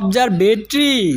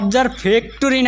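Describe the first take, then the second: First: The word is pronounced as 'observatory'. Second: The word is mangled into 'observe factory'. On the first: The speaker calls it right. "এটা অবজারভেটরি" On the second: The speaker calls it wrong. "এটা অবজার্ভ ফ্যাক্টরি না"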